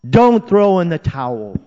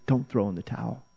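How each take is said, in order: First: Loud, high, urgent rallying cry; yelling encouragement. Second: Hushed encouragement. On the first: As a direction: shout it across a stadium. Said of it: "they're yelling to us". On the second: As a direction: bring the rallying cry right down. Shouted appeal repeated softly. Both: Acted.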